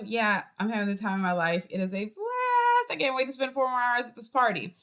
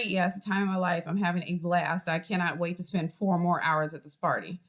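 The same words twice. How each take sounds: First: Sincere enthusiasm. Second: Sarcastic. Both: Shown as a demonstration. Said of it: "you can say exactly the same thing".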